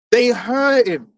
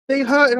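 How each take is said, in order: First: Slow, heavy shout on hurt; emphatic slow shout. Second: Said in the usual way. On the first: Real, not acted. Ranting about Esau's envy.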